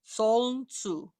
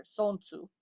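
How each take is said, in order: First: "Soln tsu" slowly, with L running into N; L sounded. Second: "Sonsu" with no L before the N; L dropped. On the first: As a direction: draw out "Soln", then a separate "tsu". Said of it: "Do we say the L sound in there?". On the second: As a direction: say "Sonsu" simply, going from the vowel straight to N. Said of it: "let's get rid of the, the L". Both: Shown as a demonstration.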